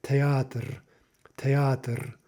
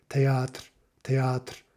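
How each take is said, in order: First: "théâtre" in Russian with a small vowel before the final R; three syllables. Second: "théâtre" in Russian with no vowel before the final R; two syllables only. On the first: Teacher showing the usual Russian form, three syllables. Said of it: "you've got three syllables there". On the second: Teacher showing the strict form, two syllables. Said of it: "truly two syllables". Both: Shown as a demonstration.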